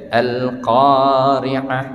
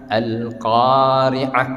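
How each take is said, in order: No difference in how they are said.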